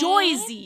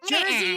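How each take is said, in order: First: The first vowel is an 'oy' sound. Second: The first vowel is a plain 'er' sound.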